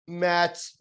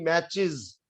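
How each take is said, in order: First: मैच said bare, no -iz ending; the wrong form people use: मैच; mispronunciation. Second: मैचेस with a clear -iz ending, MATCH-iz; correct pronunciation. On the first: Teacher mimics students' error: मैच without ending. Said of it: "लोग ... mispronounce करने की कोशिश". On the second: Teacher corrects students: मैचेस with -iz. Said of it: "मैच नहीं". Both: Shown as a demonstration.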